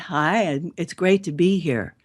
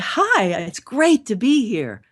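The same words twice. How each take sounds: First: It sounds flat and without emotion. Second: It sounds enthusiastic and full of emotion.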